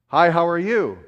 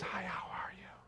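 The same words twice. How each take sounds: First: The greeting is said at normal loudness. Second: The greeting is said very quietly and timidly.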